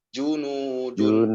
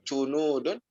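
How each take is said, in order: First: The first consonant sounds like 'j'. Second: The first consonant sounds like 'ch'. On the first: The speaker calls it right. "tapi junudun" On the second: The speaker calls it wrong. "Jangan cunudun"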